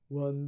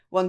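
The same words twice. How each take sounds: First: The voice sounds deep and dopey, with a lowered larynx. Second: The voice sounds ordinary, with a neutral larynx. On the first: "A low larynx. ... like your I Q has significantly dropped" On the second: "we're just going to call that a relatively neutral laryngeal position"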